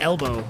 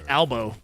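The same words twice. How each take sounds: First: The first vowel sounds like 'e'. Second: The first vowel sounds like 'a'. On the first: "instead of elbow" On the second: "like with A"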